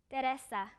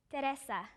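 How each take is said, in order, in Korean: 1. 이 이름은 스페인식으로 발음돼요. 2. 이 이름은 스페인식으로 발음돼요.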